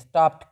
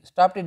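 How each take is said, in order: First: The ending is a plain t sound. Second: The ending is an extra 'ted' syllable. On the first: The speaker calls it right. "स्टॉप्ड कहते हैं" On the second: The speaker calls it wrong. "स्टॉप्टेड स्टॉप्टेड नहीं कहते"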